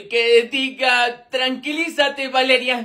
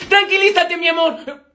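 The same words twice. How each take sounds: First: Slow, halting self-correction; corrección apenada. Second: Calmar con urgencia. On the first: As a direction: backpedal slowly after a slip of the tongue. Se corrige tras decir mi amor. (corrección lenta y titubeante) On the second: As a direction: try to calm your love mid-fight. Se le escapa un apodo cariñoso. (súplica apurada y cariñosa) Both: Acted.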